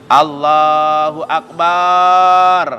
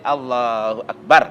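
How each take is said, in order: First: Akbar is drawn out with a lengthened vowel. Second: Akbar is said short without lengthening. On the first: The speaker calls it wrong. "Kalau akbar dipanjangin" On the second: The speaker calls it right. "Enggak boleh, jadi"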